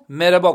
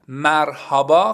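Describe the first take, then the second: First: The middle h sound is dropped. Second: The middle h sound is clearly pronounced. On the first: It sounds casual and everyday. The speaker calls it right. "اما مربا گفته میشه" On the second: It sounds bookish and formal. The speaker calls it wrong. "خیلی به قول خودمون کتابیه"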